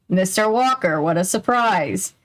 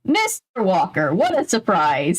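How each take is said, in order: First: Not surprised at all. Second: Said in the usual way. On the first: Acted. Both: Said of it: "who didn't sound surprised at all".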